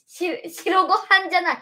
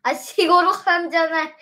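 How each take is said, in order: First: 白ご飯 said cleanly as しろごはん after a false start; careful self-corrected 白ご飯. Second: しごろはん, with the し of 白 blurred and ご飯 slurred to ごろはん; mispronounced 白ご飯. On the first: Child fixing a slip while chatting with mom, careful 白ご飯. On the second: Child tripping over 白ご飯 while chatting with mom, says しごろはん. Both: Real, not acted. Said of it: "しごろはんって何？".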